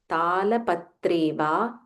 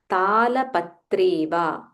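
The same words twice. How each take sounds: The two takes are said the same way.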